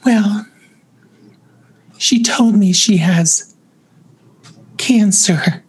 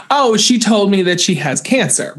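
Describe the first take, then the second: First: Imitated granny voice, slightly raised. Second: Said in the usual way. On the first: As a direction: lightly put on a friend's granny voice for hard news. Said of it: "like, granny voice". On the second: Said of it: "why couldn't you just say".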